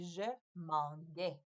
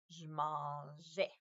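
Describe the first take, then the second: First: The middle consonant is a hard g sound. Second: The middle consonant is a soft j sound. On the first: The speaker calls it wrong. "la lettre G avec la lettre A, ça fait G" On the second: The speaker calls it right. "il fait maintenant le son J"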